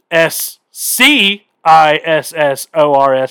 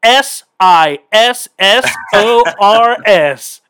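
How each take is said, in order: First: S C I S S O R S spelled slowly, the C hit hard; mock smug slow spelling with a punched C; stress on the C. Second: Slow, letter-by-letter spelling of S I S S O R S; confident slow spelling bee spelling; spelling it out slowly. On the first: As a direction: lean on the letter C in S C I S S O R S. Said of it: "don't need to put the emphasis on the C". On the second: Retold or imitated. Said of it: "I said, "Scissors".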